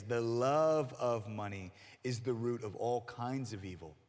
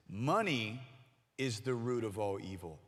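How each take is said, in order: First: Love stressed, the whole line slowed. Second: Said in the usual way. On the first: Shown as a demonstration. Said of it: "That is not what we just read". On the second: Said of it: "People think that the phrase is".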